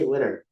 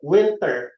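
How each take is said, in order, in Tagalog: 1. Hindi binibigkas ang tunog na T. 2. Malinaw na binibigkas ang tunog na T.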